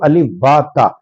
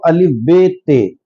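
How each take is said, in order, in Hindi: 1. अक्षरों के नाम अरबी तरीके से बोले जाते हैं। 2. अक्षरों के नाम उर्दू तरीके से बोले जाते हैं। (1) "लेकिन अगर अरबी पढ़ाई जाती है तो" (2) "अगर उर्दू पढ़ाई जाती है तो"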